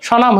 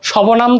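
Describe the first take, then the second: First: স্বনাম said "sho-naam", no b; silent b. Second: সবনাম said "sho-bo-naam" with a b; wrongly sounded b. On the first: Teacher giving the correct form, b-less স্বনাম. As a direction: drop the b from স্বনাম. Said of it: "স্বনাম হইছে". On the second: Teacher showing what it is not, b sounded in সবনাম. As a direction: put an extra "bo" into সবনাম. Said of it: "সবনাম তো হয়নি". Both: Shown as a demonstration.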